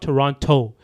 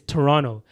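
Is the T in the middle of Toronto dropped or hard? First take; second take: hard; dropped. First: The middle T is pronounced as a clear hard T. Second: The middle T is dropped or softened. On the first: This is how outsiders say the city's name. The speaker calls it wrong. "They said Toronto with a hard T" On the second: This is how locals say the city's name. The speaker calls it right. "should say it properly"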